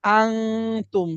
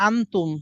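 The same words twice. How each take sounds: First: আংতুম with a long held ng; আংতুম, slow, n hidden in the nose; nasal ikhfa. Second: আনতুম with a short, plain n; আনতুম without any held hum; clear n. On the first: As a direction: stretch the nasal hum in আংতুম before tum. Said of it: "আরেকটা কি?". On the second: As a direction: say আনতুম straight through, n from the mouth. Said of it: "একটা হচ্ছে". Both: Shown as a demonstration.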